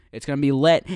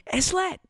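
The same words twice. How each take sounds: First: Loud hype. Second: Squeaky hype. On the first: Hyping the new podcast. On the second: Teen hosts hyping the podcast with a squeaky high lit. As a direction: jump far higher on lit. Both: Acted.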